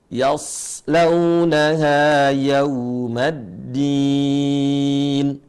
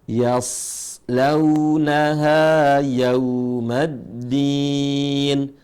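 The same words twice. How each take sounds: No difference in how they are said.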